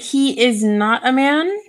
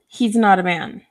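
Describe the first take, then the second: First: He is is said as two full words. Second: He is is squeezed into one syllable. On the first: "the same here" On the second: "the same here"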